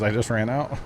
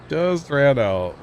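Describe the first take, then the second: First: Said in the usual way. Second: Joking slow-motion repeat; drawn out. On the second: Pretend. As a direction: playfully stretch out each word. Echoes own words after laughing.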